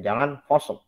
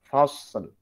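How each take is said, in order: First: The s sound is pressed tight without hiss. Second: The s sound has a clear hissing whistle. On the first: The speaker calls it wrong. "jadi sodnya seakan-akan menjadi syiddah" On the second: The speaker calls it right. "Jelaskan dulu sofir sod"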